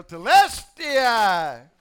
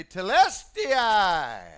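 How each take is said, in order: First: Telestai drawn out slowly and loud; victory yell. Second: Drawn-out ringing cry of Telestai; victory cry. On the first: Pretend. Preacher yelling the victory cry, loud and drawn out. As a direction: shout Telestai long and triumphant. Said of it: "I too can yell". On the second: Retold or imitated. Jesus crying out from the cross, drawn-out victory cry. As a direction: Telestai stretched long and called out. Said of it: "he cried loudly".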